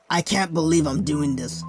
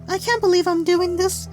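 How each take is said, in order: First: It is said in his natural voice. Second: It is said in a put-on girl's voice.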